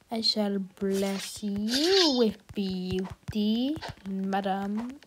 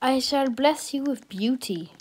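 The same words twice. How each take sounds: First: Slow, soft, lordly blessing voice; hammed-up royal blessing; mock grand blessing. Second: Said in the usual way. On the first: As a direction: bestow it like a fairy godmother, slowly.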